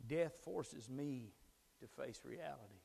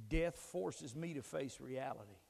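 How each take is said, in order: First: Slow emphatic repeat. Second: Said in the usual way. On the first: Shown as a demonstration. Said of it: "repeated slowly for emphasis". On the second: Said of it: "repeated line".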